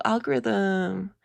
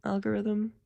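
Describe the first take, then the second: First: Slow "algorithm." stretched out as it clicks; slow realization. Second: Soft, quiet "Algorithm." said unsure; puzzled repeat. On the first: Vlogger correcting a misheard word, slowly. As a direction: draw out "algorithm." slowly, now understanding. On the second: Vlogger re-reading a misheard word, softly puzzled. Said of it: "Oh, algorithm". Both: Shown as a demonstration.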